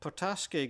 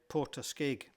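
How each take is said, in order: First: The stress falls on a late syllable. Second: The stress falls on an early syllable. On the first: This is how the locals say it. "the general emphasis on most of the words is on the later syllables" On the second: This is how an outsider might say it. "whereas I might have said"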